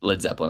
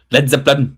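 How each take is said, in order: First: Said in the usual way. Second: Hammed-up band name; exaggerated repeat. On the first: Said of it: "I don't know why I said it like that". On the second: Shown as a demonstration. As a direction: punch out the band name in an overdone way. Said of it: "why I said it like that".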